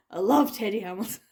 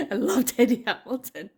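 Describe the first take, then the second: First: Said in the usual way. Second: Laughing. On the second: Real, not acted. Repeats it with a laugh.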